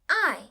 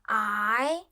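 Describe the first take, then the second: First: The pitch falls sharply from high. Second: The pitch rises from middle to high.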